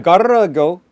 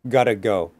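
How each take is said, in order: First: The middle consonant is a long rolled trill. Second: The middle consonant is a single quick tap. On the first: The speaker calls it wrong. "you have to be careful because you don't want to say" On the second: The speaker calls it right. "that's the flap"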